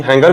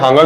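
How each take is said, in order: First: हैंगर with an "ai" first vowel; "hain-gar" pronunciation. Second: हैंगर said with an "aa" first vowel; "haan-gar" pronunciation. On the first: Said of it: "पता नहीं हैंगर भी कहते हैं". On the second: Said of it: "हैंगर भी कहते हैं". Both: Shown as a demonstration.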